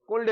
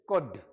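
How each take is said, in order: First: The word is said with an L sound. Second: The word is said without an L sound. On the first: The speaker calls it wrong. "इसको कुल्ड नहीं बोलते" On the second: The speaker calls it right. "एल silent है"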